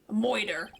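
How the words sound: The word is said in a New York accent.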